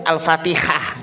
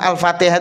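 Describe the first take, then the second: First: The middle consonant is a rasping kh sound. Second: The middle consonant is a breathy h sound. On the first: The speaker calls it wrong. "Itu sudah salah itu" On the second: The speaker calls it right. "pakai ha"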